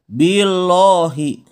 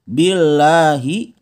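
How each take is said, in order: First: The 'l' sound is heavy and thick. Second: The 'l' sound is light and thin. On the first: The speaker calls it wrong. "jangan dibaca billahi" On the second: The speaker calls it right. "cara bacanya dia harus tipis"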